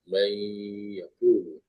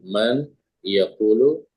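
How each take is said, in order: First: The n sound is merged into the y. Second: The n sound is pronounced clearly before y.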